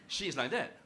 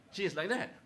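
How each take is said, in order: Both takes have the same delivery.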